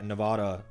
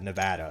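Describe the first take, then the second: First: The stressed vowel sounds like a broad 'ah'. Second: The stressed vowel sounds like the vowel in 'Ada'. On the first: The speaker calls it wrong. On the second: The speaker calls it right.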